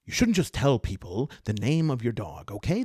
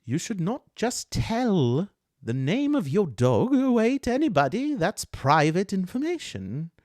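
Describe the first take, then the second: First: Lightly voiced elf, close to usual voice; touchy elf, barely disguised. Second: Distinct touchy elf voice. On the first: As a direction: scold with only a hint of character voice. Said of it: "It's just not different enough". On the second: Acted. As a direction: draw out the reprimand, high and loud. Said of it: "zero in on this voice".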